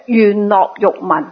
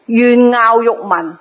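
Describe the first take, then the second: First: 樂 said as "lok" in 願樂欲聞; 願樂欲聞 with 樂 read lok; second accepted reading. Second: 樂 said as "ngaau" in 願樂欲聞; 願樂欲聞 with 樂 read ngaau; first accepted reading. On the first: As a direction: pronounce 樂 in 願樂欲聞 like lok, not ngaau. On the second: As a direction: pronounce 樂 in 願樂欲聞 like ngaau, not lok. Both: Shown as a demonstration. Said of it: "兩個字都得".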